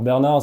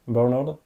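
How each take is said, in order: First: The name is pronounced the French way. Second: The name is pronounced the English way. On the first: The name sounds old-fashioned. "ça fait penser tout de suite à nos grands-parents" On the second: The name sounds less old-fashioned. "mais en V O ... on prononce Bernard"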